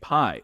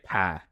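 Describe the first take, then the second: First: It is said in a standard accent. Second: It is said in a West Virginian accent.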